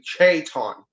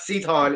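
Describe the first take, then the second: First: The name begins with a ch sound. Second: The name begins with an s sound. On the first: This is the actual name. The speaker calls it right. "it's actually Chayton" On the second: This is how others say the name. The speaker calls it wrong. "it's not Seaton"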